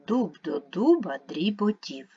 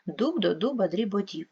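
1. Читається повільніше, у звичайному темпі. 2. Читається швидше. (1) "Читаємо разом" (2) "Швидше"

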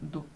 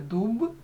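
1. Кінцевий приголосний глухий, як п. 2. Кінцевий приголосний дзвінкий, чисте б. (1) "а не дуб" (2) "Потрібно вимовляти дуб"

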